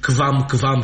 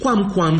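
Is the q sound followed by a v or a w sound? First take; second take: v; w. First: The q is followed by a v sound. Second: The q is followed by a w sound. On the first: The speaker calls it wrong. "nu putea fi quam-quam și aqua, cum zicem azi" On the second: The speaker calls it right. "ci quam-quam"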